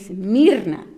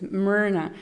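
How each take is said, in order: First: The name is said with its native pronunciation. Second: The name is said in a slightly anglicized way. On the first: It is the name's true pronunciation. The speaker calls it right. "My name is actually Mirna" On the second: It is made easier for others to say. The speaker calls it wrong. "I mispronounce it a little bit so they can actually, you know, pronounce it well"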